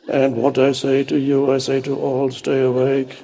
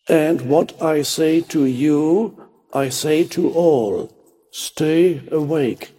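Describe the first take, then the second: First: It is said in a dull, sleepy monotone. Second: It is said in a normal, alert voice.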